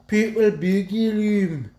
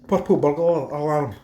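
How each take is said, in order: First: The consonants are dropped and the words run together. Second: Every consonant and vowel is pronounced clearly. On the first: The speaker calls it wrong. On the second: The speaker calls it right.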